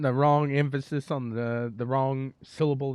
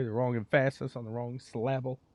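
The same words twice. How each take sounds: First: Said in the usual way. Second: "emphasis" stressed on the middle, em-FASS-is, and "syllable" as sil-LAB-le; wrong-syllable stress. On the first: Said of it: "the wrong emphasis on the wrong syllable". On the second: Shown as a demonstration. Announcer joking about mispronouncing, "emphasis" and "syllable" stressed on second syllables. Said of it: "Am I putting the wrong emphasis".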